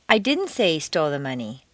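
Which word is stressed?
didn't. The stress is on the word didn't.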